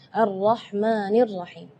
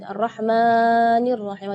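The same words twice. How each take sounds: First: The long vowel is held for two beats. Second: The long vowel is stretched beyond two beats. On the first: The speaker calls it right. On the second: The speaker calls it wrong.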